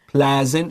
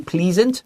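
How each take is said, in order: First: The first vowel is a short E sound. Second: The first vowel is a long E sound. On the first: The speaker calls it right. "short E" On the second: The speaker calls it wrong. "don't say pleasant. That's wrong"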